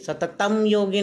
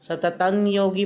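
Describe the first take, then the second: First: The first word ends in a full m sound. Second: The first word ends in a nasal glide. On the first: The speaker calls it wrong. "सततम योगी नाही म्हणायचं" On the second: The speaker calls it right. "सततं योगी पण म्हणायचं"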